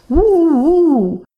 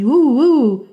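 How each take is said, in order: First: High, loud little wolf howl. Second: A lighter wolf howl for yes. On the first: Wolf howls for the mouse, high and loud. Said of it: "What a nice cry". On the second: Wolf accepts the mouse's proposal, lighter howl. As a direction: answer yes with a short howl. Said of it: "said the wolf as a yes". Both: Acted.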